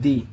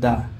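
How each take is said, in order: First: The word ends in a long ee vowel. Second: The word ends in a short uh vowel. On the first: The next word begins with a vowel sound. "তাহলে এই টিএইচ এর উচ্চারণ হবে দি" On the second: The next word begins with a consonant sound. "তাহলে তার উচ্চারণ হবে দা"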